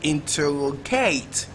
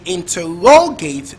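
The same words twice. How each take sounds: First: The stress is on the fourth syllable. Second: The stress is on the third syllable.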